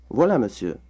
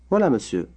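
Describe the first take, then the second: No difference in how they are said.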